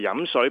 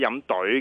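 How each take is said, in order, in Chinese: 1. 第二个字开头是 s 音。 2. 第二个字开头是 d 音。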